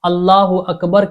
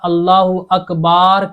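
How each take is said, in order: First: The vowel after b in Akbar is short. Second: The vowel after b in Akbar is drawn out. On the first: The speaker calls it right. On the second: The speaker calls it wrong.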